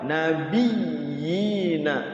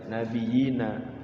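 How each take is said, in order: First: The y sound is doubled and pressed. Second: The y sound is short and single. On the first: The speaker calls it right. "Kalau ada tasydid itu dia menguatkan nabiyina" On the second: The speaker calls it wrong. "jangan sampai dibaca nabiyina"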